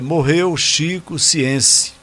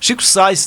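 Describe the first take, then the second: First: The name is read as spelled, Portuguese-style. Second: The name is said English-style, like 'Sainz'. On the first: The speaker calls it wrong. "Eu li como estava escrito" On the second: The speaker calls it right. "Chico Sainz não, Sainz"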